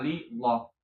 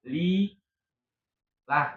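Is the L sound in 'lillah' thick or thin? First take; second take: thick; thin. First: The L is thick, with a darker vowel. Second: The L is thin, with a light vowel. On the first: The speaker calls it wrong. "bukan li loh" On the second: The speaker calls it right. "ketika dia kasroh"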